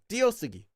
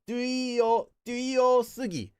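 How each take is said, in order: First: The first syllable has a single plain vowel. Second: The first syllable has a full two-part diphthong. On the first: It is how people normally say it. The speaker calls it right. "They always say it as" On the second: It is the careful dictionary reading. The speaker calls it wrong. "if you're reading this for like a dictionary entry, you'd say"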